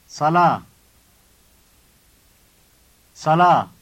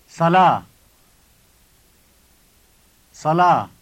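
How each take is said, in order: No difference in how they are said.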